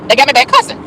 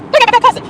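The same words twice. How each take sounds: First: Said in the usual way. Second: Same words jumped way up in a comic squeal; high squeal. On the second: Real, not acted. To viewers about the town, comic high-pitched squeal. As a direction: squeak it out in mock outrage.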